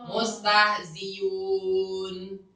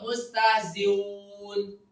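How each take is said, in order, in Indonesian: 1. Bunyi hamzah diganti dengan bunyi y. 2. Bunyi hamzah dilunakkan dan digabung ke arah w. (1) "Kalau diganti ya, namanya ib. Dam" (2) "Maka dia dengan waw"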